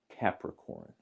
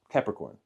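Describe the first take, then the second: First: It is said slowly. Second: It is said at normal speed.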